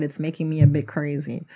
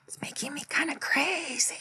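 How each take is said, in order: First: Said in the usual way. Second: High, hushed whisper with a playful lilt; silly whisper. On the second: Pretend. Giddy host joking about filming too long, silly high whisper. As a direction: whisper it high and loopy, drawing out the last word.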